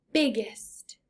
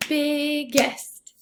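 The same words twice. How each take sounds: First: Said in the usual way. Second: "Biggest" stretched into two clear beats; syllable by syllable. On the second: Shown as a demonstration. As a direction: sound out "Biggest" as big, gest. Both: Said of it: "That one has two syllables".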